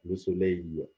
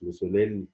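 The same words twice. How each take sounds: First: لو سولي ending in a drawn-out ey-y glide, no l; لو سولي slowly, final l silent; French pronunciation. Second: لو سوليل with a sounded final l; لو سوليل ending on a clear l; wrong pronunciation. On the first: Teacher corrects learners, ending as ey. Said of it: "لا، لو سولي". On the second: Teacher shows learners the mistake, l pronounced. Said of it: "مش لو سوليل". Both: Shown as a demonstration.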